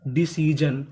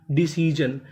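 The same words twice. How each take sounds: The two takes are said the same way.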